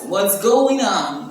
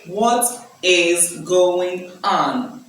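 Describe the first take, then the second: First: What and is are contracted into one syllable. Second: What and is are said as two full words. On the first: The speaker calls it right. "You say, what's" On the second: The speaker calls it wrong. "So you don't say"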